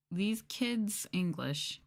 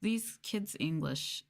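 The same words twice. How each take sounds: The two takes are said the same way.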